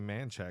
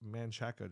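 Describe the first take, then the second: First: The name is said the local Texan way. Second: The name is said the Spanish way. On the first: This is how locals say it. "That's how Texans pronounce it" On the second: This follows the name's Spanish origin.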